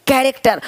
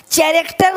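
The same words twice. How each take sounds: First: कैरेक्टर opening with a hard "k"; correct k pronunciation. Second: कैरेक्टर misread as "cha-racter", ch as in chair; wrong ch pronunciation. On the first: Teacher correcting the misreading, कैरेक्टर with a k sound. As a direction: say कैरेक्टर with k at the start. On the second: Teacher showing what not to say, कैरेक्टर with ch. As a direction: start कैरेक्टर with a mistaken ch sound. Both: Shown as a demonstration. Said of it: "कैरेक्टर नहीं".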